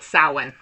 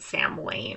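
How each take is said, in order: First: It is not said like 'Sam Wayne'. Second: It is said like 'Sam Wayne'. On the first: The speaker calls it right. "but Samhain" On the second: The speaker calls it wrong. "you would probably pronounce it Sam Wayne"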